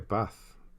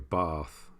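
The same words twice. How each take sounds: First: The word is said without a southern English vowel. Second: The word is said with a southern English vowel.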